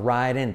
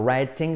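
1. La T del medio es un toque suave tipo r. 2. La T del medio es un sonido t duro. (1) "T como R suave, I como E" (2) "No writing"

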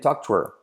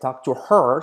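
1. El sonido h en her se omite. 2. El sonido h en her se pronuncia.

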